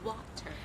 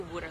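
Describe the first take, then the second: First: It sounds like 'water', with a clear R. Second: It sounds like 'wooder', in a South Philadelphia accent. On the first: This is the speaker's own way of saying it. "I say water" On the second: This is how people in South Philadelphia say it. "they say wooder, like W O O D R"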